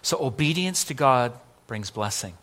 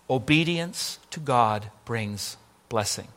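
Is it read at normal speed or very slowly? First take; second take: normal speed; very slowly. First: It is read at normal speed. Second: It is read very slowly.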